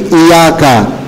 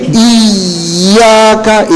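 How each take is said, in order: First: The doubled y is pronounced clearly and moderately. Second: The doubled y is pressed too hard. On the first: The speaker calls it right. "tidak dihilangin tasdidnya" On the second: The speaker calls it wrong. "itu berlebihan"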